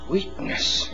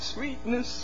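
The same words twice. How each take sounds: First: The word is said coldly, without tenderness. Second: The word is said warmly and tenderly. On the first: Something has gone wrong between the couple. "it's the same words, but there's a different tone" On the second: The couple are deeply in love. "these lovely names flowing"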